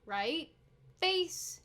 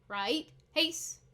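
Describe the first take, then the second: First: The second word begins with an F sound. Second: The second word begins with an H sound. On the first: The speaker calls it wrong. "it's not right face" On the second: The speaker calls it right. "it should be right face. And it's a H sound"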